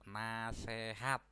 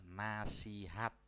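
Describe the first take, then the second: First: The middle vowel is an e sound. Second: The middle vowel is an i sound. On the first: The speaker calls it wrong. "Contoh kata tidak baku" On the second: The speaker calls it right. "Contoh kata bakunya adalah nasihat"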